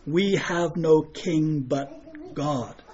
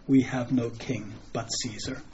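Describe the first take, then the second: First: "We have no king but God" drawn out very slowly and softly; solemn declaration. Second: Subdued retold reply. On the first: Retold or imitated. Preacher quoting what priests should have said, "God" slow and solemn. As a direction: give each word of "We have no king but God" weight, ending on a set-apart "God". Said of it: "What they should have said in return". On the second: Preacher quoting the chief priests' actual answer, subdued and soft. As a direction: quote it low-key, much softer. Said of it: "the chief priests instead say".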